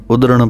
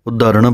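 First: ਉਦਰਣ said short as udran, no ਹਾ; correct reading. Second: ਉਦਾਹਰਣ said with a full long ਹਾ, the wrong way; wrong reading. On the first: Teacher gives students the correct reading udran. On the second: Teacher shows students the wrong reading udaharan. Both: Shown as a demonstration. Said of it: "ਉਦਾਹਰਣ ਪਾਠ ਨਹੀਂ ਬੋਲਣਾ".

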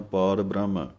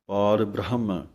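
First: ਬ੍ਰਹਮ clipped to brahm, no h; h dropped. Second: ਪਾਰ ਬ੍ਰਹਮ with the h in ਬ੍ਰਹਮ sounded; clear h sound. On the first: Teacher imitating the common wrong ਬ੍ਰਹਮ without h. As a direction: drop the h in ਬ੍ਰਹਮ like careless readers. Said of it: "ਆਮ ਹੀ ਅਸੀਂ ਹਾਹਾ ਛੱਡ ਕੇ ਬੋਲਦੇ ਹਾਂ". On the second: Teacher showing the correct ਬ੍ਰਹਮ with h. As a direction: say ਬ੍ਰਹਮ as bra-ham, h heard. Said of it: "ਵਿੱਚ ਹਾਹਾ ਲੱਗਾ ਹੋਇਆ ਹੈ।". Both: Shown as a demonstration.

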